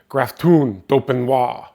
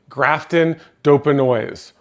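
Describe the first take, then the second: First: It is said with a French accent. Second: It is said with an English accent.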